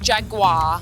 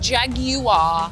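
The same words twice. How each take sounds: First: The u is not sounded as a vowel. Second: The u is sounded as its own vowel. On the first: The speaker calls it wrong. "not Jaguar" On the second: The speaker calls it right. "it is Jaguar ... because it's a U ... I'm British"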